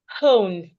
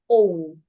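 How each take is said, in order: First: The word begins with an audible h sound. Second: The word begins directly with the vowel. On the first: The speaker calls it wrong. "instead of saying hone, breathing in" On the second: The speaker calls it right. "I would hold my breath and say own"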